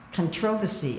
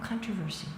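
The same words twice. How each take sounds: First: It is said in an imitated Australian accent. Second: It is said in the speaker's own accent. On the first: This is how people in Australia say it. "I remember when I first heard them saying controversy" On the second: This is the form the speaker recognizes. "Oh, controversy"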